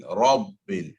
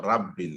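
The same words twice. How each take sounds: First: Rabbil with a full, heavy first syllable; corrected pronunciation. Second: Rabbil said short, with a light first vowel; incorrect pronunciation. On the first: Teacher giving the student the correction, heavy firm Rabbil. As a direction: stress Rabbil with a rounded, heavy Ra. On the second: Teacher showing a student the mistake, light short Rabbil. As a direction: say Rabbil quickly with a thin a. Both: Shown as a demonstration. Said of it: "not Rabbil".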